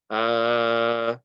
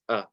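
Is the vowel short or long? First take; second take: long; short. First: The vowel is long and stretched. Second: The vowel is short and brief. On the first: "the fatha is before an alif, so it will be stretched" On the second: "The sound it makes is a"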